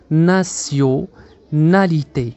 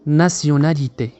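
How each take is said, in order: First: "nationalité" very slowly, broken into parts; drawn-out teaching breakdown of "nationalité"; syllable by syllable. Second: "nationalité" slowly but in one piece; measured, unbroken "nationalité" for learners; whole-word model. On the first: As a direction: split "nationalité" as na-syo, na-li-té with pauses. Teacher splits word into syllables. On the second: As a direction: join "nationalité" up as a single careful word. Teacher then says word whole. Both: Shown as a demonstration.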